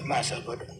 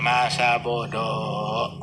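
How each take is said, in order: First: Lower, much softer throwaway; muttered shrug. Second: Drawn-out, lower careless shrug; whatever. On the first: Repeating the shrug at gossip, quiet mutter. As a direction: let it drop under your breath. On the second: Brushing off gossip from others, slow lazy shrug. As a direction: drag it out like you couldn't care less. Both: Retold or imitated.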